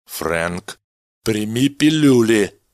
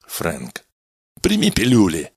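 First: Slow, louder, firm command; final order, no arguing; decisive. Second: Firm, pressing order; insistent. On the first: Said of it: "решительно произнёс Меллин". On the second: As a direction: insist he takes them. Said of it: "настойчиво повторил Меллин". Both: Acted.

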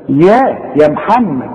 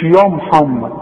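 First: يا محمد with a thin ya, slow; light ya. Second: يا محمد with a thickened ya, slow; wrong heavy ya. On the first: Teacher models the correct light ya. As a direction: say يا plainly and light. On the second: Teacher imitates the heavy ya mistake. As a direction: darken the يا as a mistake. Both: Shown as a demonstration. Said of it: "مش يا محمد".

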